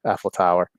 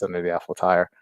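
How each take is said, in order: First: Said in the usual way. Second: Tower said like "tire"; mispronounced Tower. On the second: Real, not acted. Recounting a childhood Paris fantasy, Tower slipping into "tire". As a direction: say Tower with an "eye" vowel, as in "tire". Misspoken, then said again corrected.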